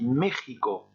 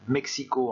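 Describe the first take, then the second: First: It is pronounced the Spanish way. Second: It is pronounced the French way. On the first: "se dit México en espagnol" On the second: "en français"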